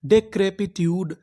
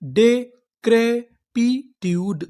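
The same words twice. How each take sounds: First: Said in the usual way. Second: Very slow, each syllable drawn out; डेक्रेपिट्यूड stretched syllable by syllable. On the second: Shown as a demonstration. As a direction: sound out डेक्रेपिट्यूड slowly. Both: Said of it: "हमारी पूरी meaning क्या बनी".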